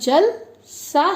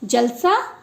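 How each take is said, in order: First: There is a slight pause after 'jal'. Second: It is said as one word without a pause. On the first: It means like water. "हल्का सा विराम दे दिया तो जल की तरह" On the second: It means a gathering. "सभा"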